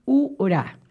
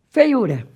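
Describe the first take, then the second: First: FEIURA broken into fei, u, ra; separated syllables. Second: Said in the usual way. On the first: Shown as a demonstration. Teacher writes it out so students notice, Feiura split by syllable. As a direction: say Feiura piece by piece. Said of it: "Escrevi aqui pra vocês perceberem". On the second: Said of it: "Se eu colocando escrito feiura".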